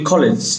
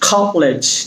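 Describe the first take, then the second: First: The first k sound has no puff of air. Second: The first k sound has a puff of air. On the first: The speaker calls it wrong. "আমরা generally বলি কলেজ, সঠিক উচ্চারণ কলেজ না" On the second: The speaker calls it right. "কলেজ উচ্চারণ হলো আমরা লিখি খ"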